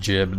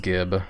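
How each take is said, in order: First: The word begins with a J sound. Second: The word begins with a hard G sound. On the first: Some other people say it this way. "Some people pronounce it as jib" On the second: This is the speaker's usual pronunciation. "I always pronounce the word as gib"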